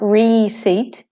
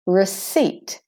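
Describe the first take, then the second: First: Receipt said slowly as "REE-seet"; mispronounced first vowel. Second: Receipt said as "ruh-SEET"; de-stressed first E. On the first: Teacher shows learners what to avoid, receipt as "REE-seet". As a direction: give receipt a long, stressed "ee" in its first syllable. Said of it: "Not receipt". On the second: Teacher corrects the first E, receipt as "ruh-SEET". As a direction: weaken the first syllable of receipt to a short "ruh". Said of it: "the first E is de-stressed". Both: Shown as a demonstration.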